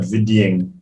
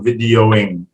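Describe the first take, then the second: First: The final -ing sound is cut off. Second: The final -ing sound is fully pronounced. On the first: The speaker calls it wrong. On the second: The speaker calls it right. "you don't drop the last sound"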